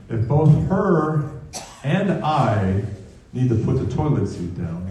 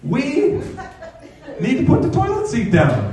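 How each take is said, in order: First: Measured objection. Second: Very high-pitched mock wifely demand; imitated wife. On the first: Retold or imitated. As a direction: push back in your own voice, piece by piece. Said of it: "I step back and go". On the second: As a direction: mimic the wife's "we", pitched far above your own voice. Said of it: "she'll say things like".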